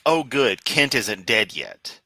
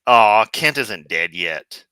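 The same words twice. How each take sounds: First: Relieved "Oh, good", then settling slowly; compassionate relief. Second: Loud, drawn-out "Aw" of letdown; mock disappointment. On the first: Acted. Host voicing his weird human compassion for Kent, relieved. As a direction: let mild relief ease out on a slow finish. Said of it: "weird bit of human compassion". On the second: Host voicing the other part of himself, disappointed. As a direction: complain slowly, as if let down by the news. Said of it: "A part of me also says".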